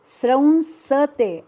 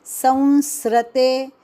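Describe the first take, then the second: First: स्रंसते with sra cluster, half r inside s, nasal sam; correct pronunciation. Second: संसृते said as sam-sri-te, slowly, r after the s; wrong pronunciation. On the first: Teacher gives the right form after the mistake, clear. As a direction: say स्रंसते crisply, sra then nsa. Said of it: "यानी स्रंसते". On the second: Teacher demonstrates the wrong way students say it, slow. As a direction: demo the common mistake संसृते, slowly. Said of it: "संसृते ऐसा बोला जाता है". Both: Shown as a demonstration.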